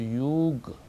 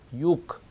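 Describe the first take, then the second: First: The word ends in a voiced g sound. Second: The word ends in a voiceless k sound. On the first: The speaker calls it wrong. "그러지 않고" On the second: The speaker calls it right. "그가 K처럼"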